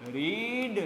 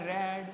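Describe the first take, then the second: First: The vowel is a long 'ee' sound. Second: The vowel is a short 'eh' sound. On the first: This is the present-tense form. "પહેલા રૂપને રીડ વચાય" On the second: This is the past-tense form. "બીજું રૂપ છે એને વાંચતી વખતે એ તમારે રેડ વાંચવાનું છે"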